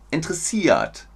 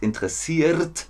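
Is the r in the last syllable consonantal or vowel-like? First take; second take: vowel-like; consonantal. First: The last-syllable r sounds like a vowel. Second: The last-syllable r sounds like a consonant. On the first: The speaker calls it right. "das kommt in interessiert vor" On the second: The speaker calls it wrong. "Nicht interessiert"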